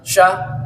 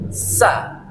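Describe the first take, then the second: First: The syllable begins with a hushing sh sound. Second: The syllable begins with a clear hissing s sound. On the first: The speaker calls it wrong. "Bukan bukan yang sya" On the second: The speaker calls it right. "tapi sa. Nah, ada suara S ya"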